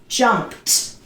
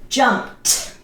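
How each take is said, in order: Both takes have the same delivery.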